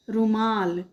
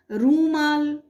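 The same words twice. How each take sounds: First: रुमाल with a short quick उ, ru-maal; correct short u. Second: रूमाल with a long drawn ऊ in the first syllable, roo-maal; wrong long u. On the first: Teacher giving children the correct word, short उ. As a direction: keep the first vowel of रुमाल short and light. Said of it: "छोटे ऊ की मात्रा लगा कर क्या बनाएंगे शब्द". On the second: Teacher showing children the wrong spelling, long ऊ. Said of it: "तो रूमाल शब्द गलत होता है". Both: Shown as a demonstration.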